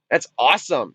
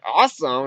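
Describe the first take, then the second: First: A low, matter-of-fact 'awesome'; retold deadpan approval; understated approval. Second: 'awesome' thrown back as a question; retold doubtful echo, swooping up. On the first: Retelling the film dad's reaction, understated approval. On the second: Retelling the girl's reply to dad, questioning echo. Retold exchange, echoed in disbelief.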